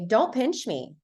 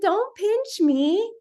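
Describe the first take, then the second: First: It is said in a firm, stern tone. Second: It is said in a soft, gentle tone. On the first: Pinching must stop now. The speaker calls it right. "if you're real stern and you say" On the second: Pinching seems acceptable. The speaker calls it wrong. "saying it nice"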